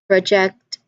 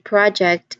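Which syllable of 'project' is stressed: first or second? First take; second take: second; first. First: The stress is on the second syllable. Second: The stress is on the first syllable. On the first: It is used as a verb. "project as a verb has the stress on the second syllable" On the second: It is used as a noun. "project as a noun has the stress on the first syllable"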